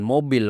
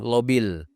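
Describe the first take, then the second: First: The word begins with an m sound. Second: The word begins with an l sound. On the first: "bukan mobil" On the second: "waktu itu dia masih cadel"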